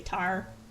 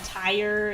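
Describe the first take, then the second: First: It is said in a Pittsburgh accent, like 'tar'. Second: It is said in a standard accent, like 'tire'. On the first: "I say tar" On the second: "Instead of saying tire"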